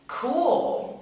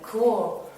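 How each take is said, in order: First: High-pitched, drawn-out "cool"; feigned casual approval. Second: Louder "cool", pitched somewhat up; changed, standoffish tone. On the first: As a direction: say a long, loud, high "cool" to brush him off. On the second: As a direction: put some distance into a brief "cool". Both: Retold or imitated. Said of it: "a little more change in my tone of voice".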